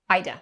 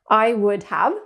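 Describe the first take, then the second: First: It is reduced and linked into one syllable-like word. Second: Three full separate words are said. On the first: "sound like all one word" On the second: "it's I would have"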